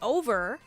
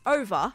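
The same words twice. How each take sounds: First: It ends with an R sound. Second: It ends with an 'ah' sound, Melbourne style.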